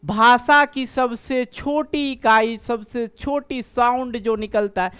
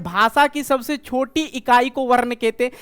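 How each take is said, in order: First: Slow, definition said word by word; slow recap. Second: Said in the usual way. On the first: Shown as a demonstration. Teacher repeating the definition slowly for students. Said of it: "मतलब क्या?". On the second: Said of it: "देखो वर्ण किसको कहते हैं?".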